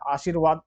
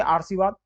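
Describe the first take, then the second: First: आशीर्वाद with r after "shee"; आशीर्वाद said as aa-sheer-vaad; correct r placement. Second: आरसीवाद with r before the sibilant; आरसीवाद said as aar-see-vaad; wrong misplaced r. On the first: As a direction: put the r just before वाद in आशीर्वाद. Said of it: "आशीर्वाद होता है शुद्ध". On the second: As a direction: sound "aar" first in आरसीवाद. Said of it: "ये अशुद्ध है". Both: Shown as a demonstration.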